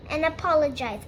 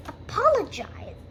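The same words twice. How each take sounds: First: Said in the usual way. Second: Higher-pitched affronted question; incredulous echo. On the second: Acted. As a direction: throw the word back in disbelief. Rachel echoes the demand, affronted.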